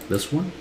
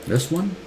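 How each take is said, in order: No difference in how they are said.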